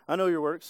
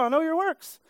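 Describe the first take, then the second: First: The tone is stern and threatening. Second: The tone is warm and approving. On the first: God is displeased with what you are doing. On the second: God is pleased with what you are doing.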